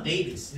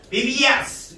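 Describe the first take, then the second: First: Said in the usual way. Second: 베이비 예스 with the ending set apart as a separate, punched "예스"; clunky split ending. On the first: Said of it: "이렇게 쓰는 게 더 편하잖아". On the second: Shown as a demonstration. Teacher showing students the awkward plural, 베이비 예스 split in two. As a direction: say 베이비 예스 in two pieces, stressing 예스. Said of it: "이렇게 하는 것보다".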